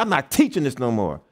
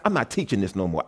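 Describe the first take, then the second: First: Said in the usual way. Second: A low, quiet vow to quit; quiet resolve. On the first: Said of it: "I said". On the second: Retold or imitated. Preacher recalls quitting after class, said low and quiet. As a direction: lower and softer, muttered to himself after class. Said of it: "I said after class".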